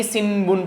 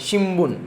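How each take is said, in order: First: सिनबुन said with s and n, the wrong way; wrong sinbun. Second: शिम्बुन said with sh and m, shim-bun; shimbun with sh. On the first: Teacher showing students the wrong सिनबुन. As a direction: show the mistake सिनबुन with s and n. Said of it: "ऐसा नहीं कि सिनबुन पढ़ेंगे". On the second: Teacher correcting students to शिम्बुन with sh. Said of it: "वो sound आना चाहिए". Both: Shown as a demonstration.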